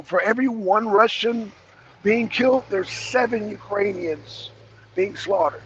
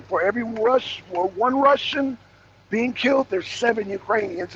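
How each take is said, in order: First: Said in the usual way. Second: Seven stressed with a falling tune; emphatic repeat. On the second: Shown as a demonstration. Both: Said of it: "Let me say it again".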